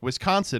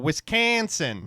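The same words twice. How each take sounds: First: It is said plainly, with no Wisconsin accent. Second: It has a strong, exaggerated Wisconsin accent.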